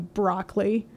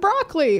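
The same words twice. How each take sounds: First: The word is spat out with contempt. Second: The word is said warmly and proudly. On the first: Someone else uses the word as an insult. "or someone can go broccoli" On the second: The speaker claims the word for themselves. "You can say, I'm broccoli"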